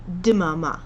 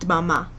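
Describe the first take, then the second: First: A short vowel is heard between D and M. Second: The D and M are joined with no vowel. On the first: This is an easier way for learners to say it. "You can add a little bit of a I in between the D and the M" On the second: This is how the word should properly sound. "It's supposed to be dmama"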